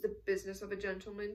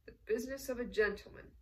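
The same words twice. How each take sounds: First: Said in the usual way. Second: Smiling. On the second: A narrator's reading. Colonel echoes the Count's turn of phrase, smiling. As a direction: repeat the phrase with a smile. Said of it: "the colonel repeated with a smile".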